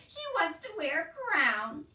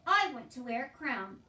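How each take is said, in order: First: High, loud, drawn-out derision; laughing mockery. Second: Loud, earnest little plea; insistent wish. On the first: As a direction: jeer at the wish, slowly and loudly. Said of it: "He laughed harder". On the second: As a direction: declare the wish firmly. Meg insists on her wish. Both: A narrator's reading.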